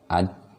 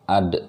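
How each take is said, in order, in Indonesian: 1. Konsonan akhir berhenti datar tanpa pantulan. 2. Konsonan akhir dilepaskan dengan pantulan. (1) "ad salah juga" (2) "Jadi ada pantulannya seperti itu"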